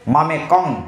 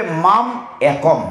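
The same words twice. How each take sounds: First: মামে কং run together as one word; wrong reading. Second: Slow মাম একম with a clear break between words; correct split reading. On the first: Teacher showing the wrong way to read মামে কং. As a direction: slur it into মামে কং with no break. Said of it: "এইভাবে পড়লে আপনি বুঝবেন না". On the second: Teacher showing devotees how to read মাম একম. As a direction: separate মাম and একম carefully, slowly. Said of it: "পড়তে হবে". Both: Shown as a demonstration.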